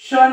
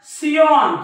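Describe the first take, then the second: First: The ending sounds like 'shun' in one syllable. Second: The ending sounds like 'see-on' in two syllables. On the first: The speaker calls it right. "हा देखील शन आहे" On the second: The speaker calls it wrong. "याला बरेच जण सियॉन किंवा सियन असं वाचू शकतात"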